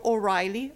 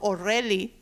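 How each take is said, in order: First: The name has an English-style pronunciation. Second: The name has a Spanish-style pronunciation.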